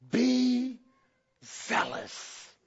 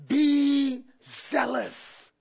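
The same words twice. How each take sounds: First: Breathy whisper of a sacred command. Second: Slow. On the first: Preacher hushing the church for Christ's instruction, whispered. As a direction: lean in and whisper "Be zealous". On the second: Repeating the instruction slowly. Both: Acted.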